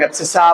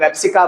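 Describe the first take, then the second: First: एब्सिसा with an s sound in the last syllable; teacher's pronunciation. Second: एब्सिका with a k sound in the last syllable; common variant pronunciation. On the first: Teacher giving students his term for x, एब्सिसा ending in "sa". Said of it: "हम लोग एब्सिसा". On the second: Teacher quoting how many people say it, एब्सिका ending in "ka". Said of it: "बहुत सारे लोग एब्सिका बोलते हैं". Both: Shown as a demonstration.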